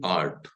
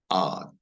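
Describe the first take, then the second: First: The R sound is pronounced after the vowel. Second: The R sound is silent after the vowel. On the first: The speaker calls it wrong. "We can't say art. No, that is the wrong pronunciation" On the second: The speaker calls it right. "So we have to pronounce it as art"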